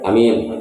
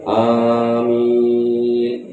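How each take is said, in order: First: Both vowels are said short. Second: Both vowels are drawn out long. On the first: "alif dan mim dibaca pendek" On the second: "dibaca dua-duanya panjang, alif sama mim"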